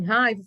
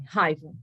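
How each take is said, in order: First: Raiva repeated a bit louder, checking what he means; mild surprised echo of raiva. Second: Raiva said low and falling, dropped like a stone; lowered, sulky demo of the boy; sullen boy's answer. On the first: Retold or imitated. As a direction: echo raiva back as a question. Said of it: "Eu fiz assim". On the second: Shown as a demonstration. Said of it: "Desse jeito, assim".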